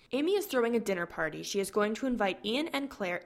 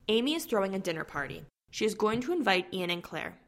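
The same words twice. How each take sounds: First: It runs on quickly without a pause. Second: There is a clear pause after party.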